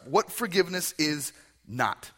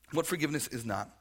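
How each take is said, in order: First: Announced louder. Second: Said in the usual way. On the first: Shown as a demonstration.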